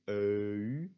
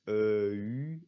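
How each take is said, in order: No difference in how they are said.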